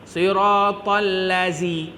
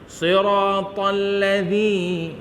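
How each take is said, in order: First: The consonant is said as a plain z sound. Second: The consonant is said with the tongue between teeth. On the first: The speaker calls it wrong. "dia tak sebut zal, dia sebut zai" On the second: The speaker calls it right. "sebutan zal"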